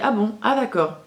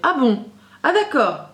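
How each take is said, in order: First: The reaction sounds flat and detached. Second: The reaction sounds warm and emotionally engaged. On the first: The listener does not share the teller's feelings. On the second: The listener shares and feels the teller's emotions.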